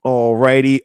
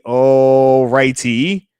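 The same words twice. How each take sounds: First: Said in the usual way. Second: Slow stretched all righty. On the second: Real, not acted. Streamer settling in for his viewers, slow drawn-out all righty.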